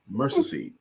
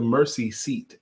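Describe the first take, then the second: First: The last word ends with a d sound. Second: The last word ends with a clear t sound. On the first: This is how the local people said the name. "the way they said it was Mercy Seed" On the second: This is the church's actual name. "The name of the church was the Mercy Seat Baptist Church"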